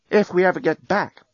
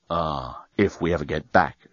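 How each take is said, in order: First: Higher-pitched, doubtful reminder. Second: Low, soft agreement; resigned agreement. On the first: Acted. Woman doubting to her partner they will return, doubtful. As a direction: raise the voice on a big "if". Doubtful line, echoed lower by Dan. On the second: A narrator's reading. Dan agreeing they may never get back, resigned. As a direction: echo it lower, conceding the point. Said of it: "agreed Dan".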